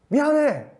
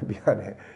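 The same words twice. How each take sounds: First: It is said with a high, harsh pitch. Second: It is said with a low, soft pitch. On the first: The apology is not sincere and starts a fight. The speaker calls it wrong. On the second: The apology is sincere. The speaker calls it right.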